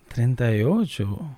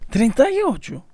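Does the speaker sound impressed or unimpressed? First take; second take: unimpressed; impressed. First: It sounds unimpressed, as if expecting older. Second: It sounds impressed and pleasantly surprised.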